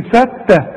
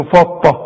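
First: فتة with a thin, light ta. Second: فطة with a thick emphatic ta; mock wrong فطة, heavy ta. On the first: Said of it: "هتقول لي فتة". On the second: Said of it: "ولا تقول له فطة". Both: Shown as a demonstration.

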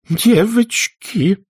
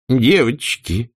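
First: Much higher, very slow drawn-out cry; Aunt Pitty wailing at the quarrelling girls; wailing plea. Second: Slow, drawn-out plea; Aunt Pitty pleading with the girls. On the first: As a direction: wail it, trembling. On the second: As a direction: stretch it, begging them stop. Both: A narrator's reading. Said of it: "взмолилась мисс Питтипэт".

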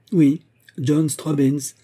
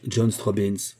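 First: "Oui, John Straubens" drawn out slowly, higher and louder, leaning on "Oui"; emphatic reveal. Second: Said in the usual way. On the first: A narrator's reading. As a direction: land the name like a dramatic reveal, slowly. Narrator stresses the revealed name.

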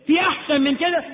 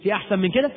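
First: في أحسن من كده asked higher, rising on في; rhetorical challenge. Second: Said in the usual way. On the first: Shown as a demonstration. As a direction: press the crowd with في أحسن من كده, voice lifted. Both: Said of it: "في أحسن من كده؟ (repeated)".

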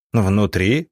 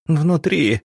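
First: ВНУТРИ as a rising question; ВНУТРИ asked back, tune going up; questioning echo. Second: High-pitched anguished moan; high wail without much volume. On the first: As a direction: echo ВНУТРИ at normal pitch, lifting at the end. Штольц echoes the woman, alarmed. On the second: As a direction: moan it out high, like a distraught village woman. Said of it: "простонала она". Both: A narrator's reading.

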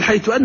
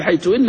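First: حيث أن with أن said as open anna; wrong form hayth anna. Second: حيث أن with أن said as inna, with kasra; correct form hayth inna. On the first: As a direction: say أن with a fath, anna, as the common mistake. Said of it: "غلطان". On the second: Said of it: "لكن الصواب هو: حيث إن". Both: Shown as a demonstration.

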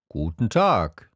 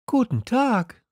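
First: Plain-pitched trader's hello; merchant character. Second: Put-on very high young greeting; high, light hello; Little Prince. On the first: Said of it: "sagte der Händler". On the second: Prince greets the merchant, in a high voice. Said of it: "sagte der kleine Prinz". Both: A narrator's reading.

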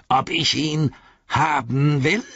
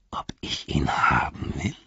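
First: Higher and slow, trembling with greed; the orc leans in, hungry; eager orc voice. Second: Breathless whisper, words barely voiced; a greedy orc hardly daring to ask; whispered disbelief. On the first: Orc repeats it aloud, higher and slower, greedy. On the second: Orc whispers to the hobbits, greedy and unbelieving. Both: A narrator's reading.

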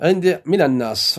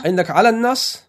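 First: Firm falling "من الناس", stress on من; teacher states the correct text "من الناس"; corrected reading. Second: Asks back with على, rising: "على الناس؟"; teacher queries a misread word; questioning the wording. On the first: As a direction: gives the right word من, settling down. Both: Shown as a demonstration.

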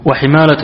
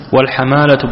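First: وحمالة with an i after the ح; kasra on الحاء. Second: والحمالة with an a after the ح; fatha on الحاء. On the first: Student reads the sword word aloud, وحمالة with kasra. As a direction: say وحمالة as "wa-himala". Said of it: "السيف بالكسر". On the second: Student reads the blood-money word aloud, والحمالة with fatha. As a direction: say والحمالة as "wal-hamala". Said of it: "والحمالة بالفتح". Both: Shown as a demonstration.

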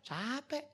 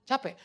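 First: "Capek" stretched long and higher; drawn-out CAPEK. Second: Said in the usual way. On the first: Acted. Preacher admits slide work tires him, drawn-out "Capek". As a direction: draw out "Capek" as a rising admission. Answers himself, admitting exhaustion.

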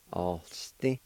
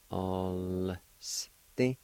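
First: Said in the usual way. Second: "All" drawn out long, pause, "Sti" split off; syllable by syllable. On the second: Shown as a demonstration. Teacher repeating the word for learners, slowly sounded out. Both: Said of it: "like this".

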